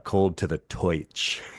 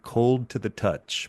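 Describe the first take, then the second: First: The last word has an 'oi' vowel. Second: The last word has a plain 'uh' vowel.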